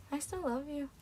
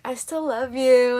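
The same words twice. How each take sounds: First: Very soft, almost whispered love confession; hushed mock plea. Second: Slow, drawn-out mock love confession; drawn-out plea. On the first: Mock caller on the phone to the speaker, hushed plea. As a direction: say it tiny and hushed. Repeats the joke call, hushed. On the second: Mock caller to the speaker on the phone, drawn-out plea. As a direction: stretch it out at normal volume. Acting out a clingy ex's call.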